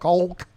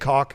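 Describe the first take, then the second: First: The L sound is clearly pronounced. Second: The L sound is silent. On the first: The speaker calls it wrong. "really put that emphasis on the L" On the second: The speaker calls it right. "just say caulk"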